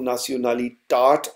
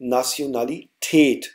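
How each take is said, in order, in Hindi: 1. आखिरी अक्षर में खुला 'ah' स्वर है। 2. आखिरी अक्षर में सपाट 'eh' स्वर है। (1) "इसको नाशनलिटाट नहीं पढ़ा" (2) "हमने इसको पढ़ा नाशनलिटेट"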